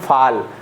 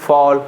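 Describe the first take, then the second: First: The vowel is an open 'ah' sound. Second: The vowel is a rounded 'aw' sound. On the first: The speaker calls it wrong. "फाल हमारा गलत हो जाएगा" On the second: The speaker calls it right. "फॉल सही रहेगा"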